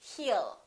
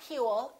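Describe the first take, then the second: First: No W sound is heard before the L. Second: A W sound is heard before the L. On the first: The speaker calls it right. "it's he'll" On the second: The speaker calls it wrong. "It's not he'll"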